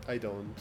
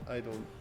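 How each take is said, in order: Both takes have the same delivery.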